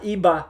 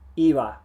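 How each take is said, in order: First: The lips close fully on the b. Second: The lips come close but never touch. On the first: The speaker calls it wrong. "Not iba" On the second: The speaker calls it right. "You just get close"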